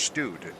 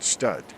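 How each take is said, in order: First: The vowel is a long 'oo' sound. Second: The vowel is a short 'uh' sound. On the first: The speaker calls it right. "Student starts with stud pronounced stewed" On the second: The speaker calls it wrong. "not stud"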